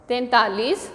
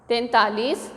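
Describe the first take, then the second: Both takes have the same delivery.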